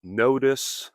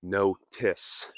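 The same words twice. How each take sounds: First: "notice" with the T as a quick D, "nodus"; flapped T. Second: "notice" split as "no-tiss" with aspirated T; hard middle T. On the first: Teacher showing American "notice", T tapped like D. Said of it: "I am saying notice". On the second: Teacher showing what not to say, "notice" with hard T. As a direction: hit a crisp T in the middle of "notice". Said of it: "and not notice". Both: Shown as a demonstration.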